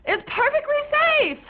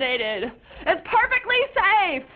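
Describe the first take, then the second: First: High, pleading insistence; teen insisting to parents, higher; insistent whine. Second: Slow, spelled-out insistence; teen repeating it slowly to parents; slow emphatic. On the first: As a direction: push the words up high to convince. Repeated insistence. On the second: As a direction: drag each word out deliberately. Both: Acted.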